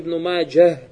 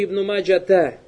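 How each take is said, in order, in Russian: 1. Имя заканчивается произносимым звуком h. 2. Имя заканчивается добавленным звуком ata. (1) "Ге обязательно говорит" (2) "Это неправильно, то есть там арбуты там нет"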